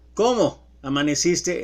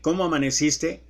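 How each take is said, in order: First: It is said with a pause after cómo. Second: It is said without a pause after cómo.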